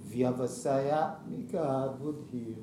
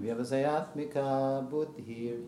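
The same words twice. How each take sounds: First: It is said slowly. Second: It is said at normal speed.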